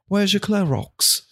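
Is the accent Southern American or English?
English. It is said in an English accent.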